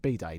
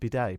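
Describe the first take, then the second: First: It sounds English, like a shortened "birthday." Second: It is pronounced the way French speakers say it. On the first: "I'm English, innit?" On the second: "what do the French say?"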